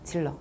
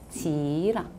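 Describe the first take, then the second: First: The first syllable is clipped with an L sound. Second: The first syllable is drawn out long without L. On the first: The speaker calls it wrong. "대부분 질러라고 발음해요" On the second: The speaker calls it right. "지 발음을 좀 길게 하면 돼요"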